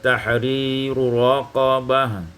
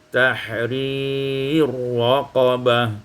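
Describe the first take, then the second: First: A vowel separates the two r sounds. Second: The two r sounds merge into one.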